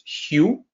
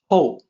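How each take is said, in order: First: The vowel sounds like the one in 'you'. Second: The vowel sounds like the one in 'go'. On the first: The speaker calls it wrong. "do not mistake this as Hugh" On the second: The speaker calls it right. "No, it's actually Hou"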